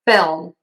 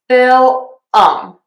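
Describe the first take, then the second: First: The word is said as a single syllable. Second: An extra vowel splits the word into two syllables. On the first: The speaker calls it right. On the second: The speaker calls it wrong.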